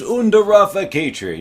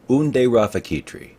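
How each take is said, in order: First: The first word ends in an 'ah' vowel. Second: The first word ends in an 'eh' vowel. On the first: The speaker calls it wrong. "I've been saying Unda Rafakitri" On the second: The speaker calls it right. "it really should be Unde"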